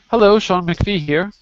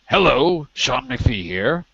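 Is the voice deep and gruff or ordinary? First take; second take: ordinary; deep and gruff. First: It is said in an ordinary voice. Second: It is said in a deep, gruff voice. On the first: The speaker calls it wrong. "Oh, sorry" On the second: The speaker calls it right. "I have to do that gruffy low voice"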